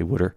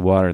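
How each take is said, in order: First: Water is said the Philadelphia way, like wooder. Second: Water is said with a standard accent.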